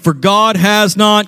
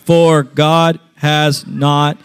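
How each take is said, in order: First: It is read at a normal, quicker pace. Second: It is read at a slower, deliberate pace.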